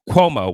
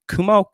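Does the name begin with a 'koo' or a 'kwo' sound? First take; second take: kwo; koo. First: The name begins with a 'kwo' sound. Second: The name begins with a plain 'koo' sound. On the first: The speaker calls it right. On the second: The speaker calls it wrong.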